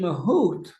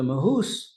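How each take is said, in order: First: The word ends with a t sound. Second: The word ends with an s sound.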